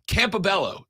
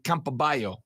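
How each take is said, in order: First: The double L is said as an English L. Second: The double L is said the Spanish way. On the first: The speaker calls it right. "That's how you say that, right?" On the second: The speaker calls it wrong. "with two L's in Spanish, it would be"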